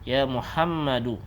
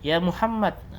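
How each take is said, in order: First: The name ends with a final u vowel. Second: The name ends on a consonant without a vowel. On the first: It is the full reading. "kalau dibaca lengkap harokatnya seperti ini" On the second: It is a shortened reading. "terkadang untuk diringkas harokat akhirnya tidak dibaca"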